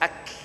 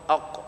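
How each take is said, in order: First: It ends in a light, breathy k sound. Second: It ends in a deep, bouncing q sound. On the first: The speaker calls it right. "dia huruf hamas keluar" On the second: The speaker calls it wrong. "dia bunyi qalah-qalah lah, ataupun dia bunyi qaf"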